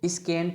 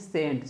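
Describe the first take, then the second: First: A k sound follows the s. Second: No k sound follows the s. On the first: The speaker calls it wrong. "आप इसको स्केंट नहीं पढ़ेंगे" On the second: The speaker calls it right. "इसको क्या पढ़ते हैं"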